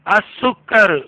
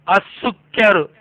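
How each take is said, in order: No difference in how they are said.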